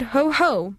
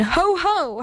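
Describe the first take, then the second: First: Mild, slow mocking ho-ho. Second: Lightly howled, higher-pitched ho-ho; howled jeer. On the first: The rest jeering at the moon, understated slow mockery. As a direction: draw out a lightly mocking ho-ho. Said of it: "mocked the rest of them". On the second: Evil things crowding round the moon, mild high howl. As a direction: give a small high howl of mockery. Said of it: "howled the things again". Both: A narrator's reading.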